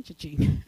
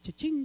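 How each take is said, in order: First: Cha-ching dropped very low like a cash register joke; low comic "cha-ching" sound effect; deep cha-ching. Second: Said in the usual way. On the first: Shown as a demonstration. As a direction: drop your voice way down on "cha-ching". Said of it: "Now we're talking cha-ching".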